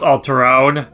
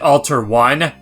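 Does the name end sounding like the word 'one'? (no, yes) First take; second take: no; yes. First: The name does not end like the word one. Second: The name ends sounding like the word one. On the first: The speaker calls it right. "I'm just gonna go with Alterone" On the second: The speaker calls it wrong. "As a kid, I used to always pronounce it Alter one ... but that just does not sound right"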